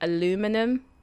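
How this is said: It is said the American way. "you guys say aluminum"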